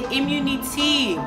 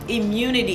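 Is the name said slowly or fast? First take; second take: slowly; fast. First: The name is said slowly as two parts. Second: The name is said fast as one word.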